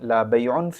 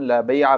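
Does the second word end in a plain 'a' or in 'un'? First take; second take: un; plain a. First: The word ends in a nasal 'un'. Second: The word ends in a plain short 'a'. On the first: "रफ़ा तनवीनी" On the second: "नसब बिला तनवीन"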